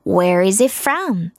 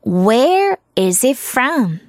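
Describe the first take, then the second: First: Said in the usual way. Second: Very slow, word-by-word "Where is it from"; slow model reading. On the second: Shown as a demonstration. Teacher shows how to ask someone's origin, slowly. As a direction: stretch out each word for learners.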